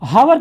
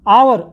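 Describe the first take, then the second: First: The word begins with an h sound. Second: The word begins straight with a vowel. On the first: The speaker calls it wrong. "हावर कभी नहीं बोलते हैं" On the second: The speaker calls it right. "हम क्या बोलते हैं, आवर"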